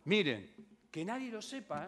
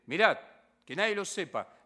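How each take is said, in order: First: Said in the usual way. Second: "Mirad" barked out loud, then "que nadie lo sepa" firm; louder strict command as Jesus charging the two blind men; stern order. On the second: Retold or imitated. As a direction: give the order rigorously, not kindly. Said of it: "no, rigurosamente".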